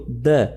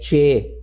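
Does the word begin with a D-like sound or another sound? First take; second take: D-like; other. First: The word begins with a D-like sound. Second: The word begins with a non-D sound. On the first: The speaker calls it right. "Ele tem som de D" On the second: The speaker calls it wrong. "e não é"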